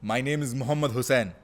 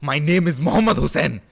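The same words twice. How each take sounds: First: It is said in a brave, confident tone. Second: It is said in an angry tone.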